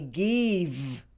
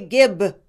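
First: The word ends with a V sound. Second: The word ends with a B sound. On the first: "and some say give" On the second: "Most Hispanics pronounce these V's as B's"

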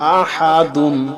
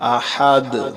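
First: The word ends with the 'un' ending. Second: The word stops on 'd' without 'un'.

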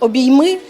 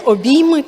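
First: The stress is on the last syllable. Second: The stress is on the second syllable. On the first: It is a call to hug. "як заклик" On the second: It names the hugs as something done. "як реалізація"

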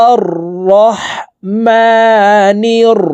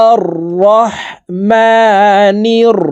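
No difference in how they are said.

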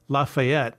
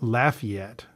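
First: The name is said the French way. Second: The name is said the local American way. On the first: The speaker calls it wrong. "the more kind of French way of saying it" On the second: The speaker calls it right. "But they say it Lafayette"

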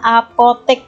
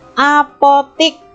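First: The last syllable has the vowel e. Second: The last syllable has the vowel i. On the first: This is the standard form. The speaker calls it right. "kata bakunya adalah apotek pakai e" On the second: This is the informal, non-standard form. The speaker calls it wrong. "apotik ya pakai i"

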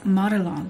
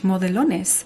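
First: The name is said with English pronunciation. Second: The name is said with Spanish pronunciation. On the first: The speaker calls it right. "But it's Modelones" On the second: The speaker calls it wrong. "That's what how you would say this in Spanish"

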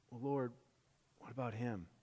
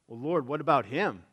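First: It sounds worried and caring. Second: It sounds angry and irritated.

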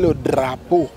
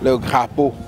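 First: The word begins with a d sound. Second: The word begins with a g sound. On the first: The speaker calls it right. "C'est le drapeau pour permettre au sourd-muet de pouvoir lire sur les lèvres" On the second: The speaker calls it wrong. "vous voyez un enseignant qui dit « le grappeau »"

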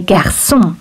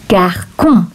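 First: The middle consonant is a soft S sound. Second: The middle consonant is a hard K sound. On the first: The letter has a cedilla under it. The speaker calls it right. "But I want to say garçon" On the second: The letter has no cedilla under it. The speaker calls it wrong. "If I don't put the cédille accent, I would read that word garçon"

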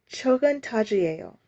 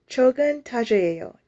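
Both takes have the same delivery.

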